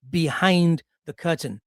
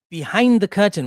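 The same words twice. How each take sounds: First: Said in the usual way. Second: Behind the curtain repeated with a louder push on Behind; emphatic repeat. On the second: Shown as a demonstration. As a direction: hit Behind hard on the repeat.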